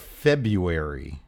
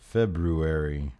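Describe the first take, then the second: First: The first r sound is dropped. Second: The first r sound is clearly pronounced.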